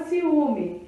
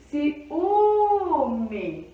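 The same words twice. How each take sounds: First: Said in the usual way. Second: "ciúme" with a long, swelling Ú; stress on penultimate syllable. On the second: Shown as a demonstration. Teacher showing penúltima sílaba é tônica, "ciúme" with Ú held long. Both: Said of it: "Essa penúltima sílaba é tônica".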